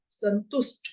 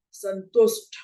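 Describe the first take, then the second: First: संतुष्ट ending in unaspirated ट; संतुष्ट with ट, not ठ; correct pronunciation. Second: संतुष्ट as "santushth", ending in ठ; संतुष्ट said with aspirated ठ; wrong pronunciation. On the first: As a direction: end संतुष्ट on a plain retroflex t. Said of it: "शब्द है". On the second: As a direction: add a puff of air to the last sound of संतुष्ट. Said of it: "इसका गलत उच्चारण". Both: Shown as a demonstration.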